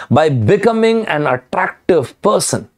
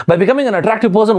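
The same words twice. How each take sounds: First: Said in the usual way. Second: Fast, high-pitched baffled repeat; mock bewilderment, quick and raised in pitch; puzzled echo. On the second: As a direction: echo it quickly like a confused listener. Puzzled listener echoes the statement.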